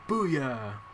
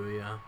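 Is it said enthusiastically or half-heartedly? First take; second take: enthusiastically; half-heartedly. First: It is said with full enthusiasm. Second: It is said flatly, without enthusiasm.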